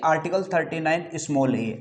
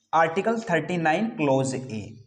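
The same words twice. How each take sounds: First: article thirty nine स्मॉल ए, letter read as small a; the incorrect स्मॉल ए version; wrong reading. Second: article thirty nine क्लॉज ए, with ए read as clause a; correct reading. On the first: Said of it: "ऐसा नहीं कि". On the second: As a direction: say क्लॉज ए, not small a. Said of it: "इसका उच्चारण किस प्रकार से करेंगे". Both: Shown as a demonstration.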